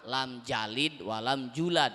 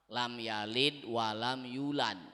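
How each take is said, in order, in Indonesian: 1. Kata kerjanya dimulai dengan bunyi 'j'. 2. Kata kerjanya dimulai dengan bunyi 'y'.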